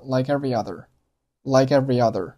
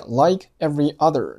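First: "like every other" run together as one word; linked speech. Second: Said in the usual way. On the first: Shown as a demonstration. Teacher showing learners linking, "like every other" unbroken. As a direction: join the k of "like" straight onto "every". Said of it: "连读成了".

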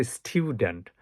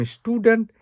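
First: "স্টুডেন্ট" as STYOO-dent with a y-glide; styu, not stu, in "স্টুডেন্ট"; corrected pronunciation. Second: "স্টুডেন্ট" as STOO-dent, no y-glide; plain oo in "স্টুডেন্ট", stu-dent; old pronunciation. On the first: Teacher correcting the word, "স্টুডেন্ট" said styu-dent. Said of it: "এটার উচ্চারণ হচ্ছে". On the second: Teacher showing how we used to say it, "স্টুডেন্ট" as stu-dent. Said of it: "আগে বলতাম". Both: Shown as a demonstration.

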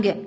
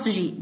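First: "G" said as a hard guh; hard G sound. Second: "G" said as jee, with a soft j; letter-name G. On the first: Teacher confirming the sound meant, hard guh. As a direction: say "G" as the sound in go, not jee. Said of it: "This one G". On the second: Teacher ruling out the letter name, soft jee. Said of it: "not G". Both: Shown as a demonstration.

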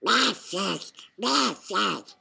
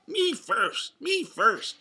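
First: Loud, garbled duck quack-talk; Donald Duck shout. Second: High, loud, intelligible shout; Donald's shout, clearly worded. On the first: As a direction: squawk the words as a barely intelligible duck. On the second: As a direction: repeat the duck's demand in clear words. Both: A narrator's reading. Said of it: "shouted Donald".

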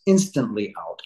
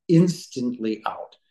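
First: Said in the usual way. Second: "instantly out" drawn out slowly for emphasis; emphatic repeat. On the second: Real, not acted. Man stressing how fast he blacked out, slow emphatic "instantly out". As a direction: stretch "instantly out", each syllable weighed.

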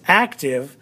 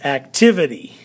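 First: "active" accented on the first syllable; stress on AC. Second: "activity" accented on the second syllable; stress on TIV. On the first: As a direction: lean on AC in "active", letting tive drop. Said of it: "accent is actually on the very beginning". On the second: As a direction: punch TIV in "activity", then fall. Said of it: "accent is on different parts". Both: Shown as a demonstration.

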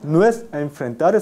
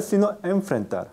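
First: Enfrentar with a plain n before f, marked as the error; wrong version. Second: Enfrentar with a lip-teeth nasal before f; corrected enfrentar after the wrong one; right version. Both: Shown as a demonstration.

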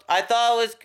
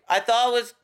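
Both takes have the same delivery.

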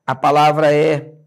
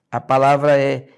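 No difference in how they are said.

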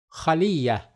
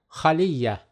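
No difference in how they are said.

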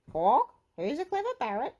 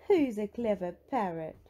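First: High, loud parrot squawk; high-pitched parrot echo; copying parrot. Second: Lightly voiced granny cooing to a pet; a hint of doting granny; doting praise. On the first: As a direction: mimic like a pet parrot. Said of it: "Polly copied". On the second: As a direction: praise the parrot fondly. Granny praises parrot, which then copies. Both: A narrator's reading.

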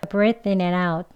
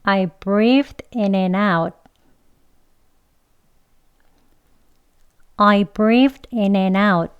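First: Quicker linked run, th barely touched. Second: Very slow, linked model sentence; 천천히. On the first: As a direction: glide through it without lingering. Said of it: "조금 빨리 해볼 건데요". (빨리 지나가듯 이어서) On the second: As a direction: take it slowly, word by word for learners. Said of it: "천천히 두 번 해볼게요". (천천히 또박또박) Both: Shown as a demonstration.

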